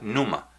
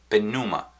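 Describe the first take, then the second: First: The initial P sound is silent. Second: The initial P sound is pronounced. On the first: "aunque se pronuncia pneuma" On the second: "con P"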